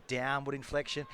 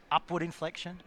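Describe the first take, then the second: First: "downward inflection" with a quiet falling tune. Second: "upward inflection" said with a rising lilt. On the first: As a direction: drop "downward inflection" low and soft. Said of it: "It's the downward inflection". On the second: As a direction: lift the tune on "upward inflection". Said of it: "It's not always about the upward inflection". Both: Shown as a demonstration.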